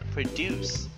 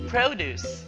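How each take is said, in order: First: It carries the verb stress pattern. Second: It carries the noun stress pattern. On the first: It names an action. "And the verb produce" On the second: It names a thing. "Last, produce"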